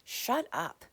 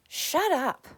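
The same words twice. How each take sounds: First: Said in the usual way. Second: Higher and louder second shut up; fed-up repeat, louder; sharper shut up. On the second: Real, not acted. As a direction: snap it out, harder this time.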